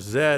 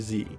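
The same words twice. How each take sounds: First: The letter is said as zed, non-American. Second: The letter is said as zee, American.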